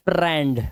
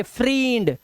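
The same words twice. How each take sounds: First: Said in the usual way. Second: फ्रींड drawn out as "freeend"; long EE misreading. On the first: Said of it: "लेकिन हम इसे क्या पढ़ते हैं?". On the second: Shown as a demonstration. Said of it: "इसे ये पढ़ना चाहिए फ्रींड". (फ्रींड को लंबी ई से पढ़ें)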